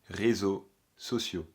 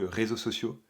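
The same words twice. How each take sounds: First: The phrase is said slowly. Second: The phrase is said quickly. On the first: The speaker calls it right. "C'est mieux là, non?" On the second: The speaker calls it wrong. "ça fait bizarre. Ou alors je le dis peut-être trop vite"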